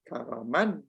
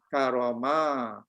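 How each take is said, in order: First: The word ends with an n sound. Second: The word ends with a lengthened a vowel. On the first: The word is written without a final alif. "Kalau tak ada alif" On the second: The word is written with a final alif. "Tapi ada alif ni karama. Min kemudian kita panjangkan sikit"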